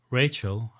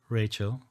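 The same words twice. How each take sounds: First: Louder, defiant. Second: Said in the usual way. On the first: Acted. Narrator repeats Rachel's name, louder and defiant. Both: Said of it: "I repeat louder and more defiant".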